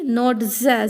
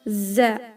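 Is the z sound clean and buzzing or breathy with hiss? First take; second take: breathy hiss; clean buzzing. First: A breathy z mixed with an s hiss. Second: A clean buzzing z with no extra air. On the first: The speaker calls it wrong. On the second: The speaker calls it right. "pronounce it by a vibrating sound"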